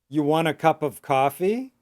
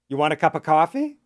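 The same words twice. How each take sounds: First: The question is spoken at a medium pace. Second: The question is spoken quickly and run together. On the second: "and fast"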